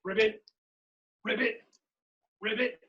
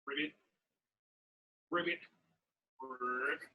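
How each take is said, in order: First: Lightly imitated frog calls; short, separate ribbits with a hint of frog. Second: Short croaked ribbits, ending low; frog croak. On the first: Showing everybody how frogs are, light frog ribbits. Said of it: "Everybody frogs are like this". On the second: Pretend. Leader asking what animal am I, low frog croaks. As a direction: imitate a frog, letting the last croak sink. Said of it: "I'm a frog".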